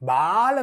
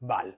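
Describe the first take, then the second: First: The vowel is drawn out long. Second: The vowel is kept short. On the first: The speaker calls it wrong. "ബാൽ എന്ന് വായിക്കരുത്" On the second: The speaker calls it right. "ഷോർട്ടായിട്ട് ഉച്ചരിക്കണം"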